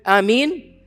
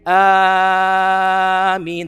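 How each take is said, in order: First: The second vowel is stretched out long. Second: The first vowel is stretched out long. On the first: The speaker calls it right. "The mad is in the ya. ... You can do Ameen" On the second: The speaker calls it wrong. "You should not say Ameen. That's incorrect to say"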